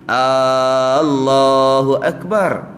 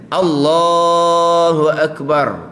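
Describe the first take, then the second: First: The opening vowel of Allah is drawn out long. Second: The opening vowel of Allah is kept short. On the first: The speaker calls it wrong. "Kalau memanjangkan hamzah lafaz Allah tu jadi" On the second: The speaker calls it right. "Dia kena"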